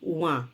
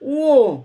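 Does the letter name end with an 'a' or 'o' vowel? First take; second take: a; o. First: The name ends with an 'a' vowel. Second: The name ends with an 'o' vowel. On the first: The speaker calls it wrong. "আমরা কি বলি?" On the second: The speaker calls it right. "আসল উচ্চারণ হচ্ছে"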